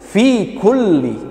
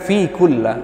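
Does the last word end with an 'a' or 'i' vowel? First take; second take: i; a. First: The last word ends with an 'i' vowel. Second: The last word ends with an 'a' vowel. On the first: The speaker calls it right. "Kalau di bawah tanda tasydid dibacanya kasrah" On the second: The speaker calls it wrong. "bukan fi kulla"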